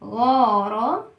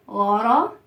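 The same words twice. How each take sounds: First: غارة drawn out very slowly; teacher blending غارة slowly. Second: Said in the usual way. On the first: Shown as a demonstration. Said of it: "تعالى نقرأ تلات أصوات". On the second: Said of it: "نقرأ".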